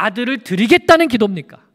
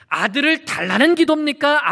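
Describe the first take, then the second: First: 드리겠다는 punched, louder, with falling end; stress on 드리겠다는. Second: 달라는 stressed, questioning with falling end. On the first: Preacher asking the congregation, loud stress on 드리겠다는. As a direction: hit 드리겠다는 hard as the right answer. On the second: Preacher asking the congregation, stress on 달라는. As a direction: lean on 달라는 as the wrong option. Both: Shown as a demonstration. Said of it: "아들을 드리겠다는 기도였던 것이죠".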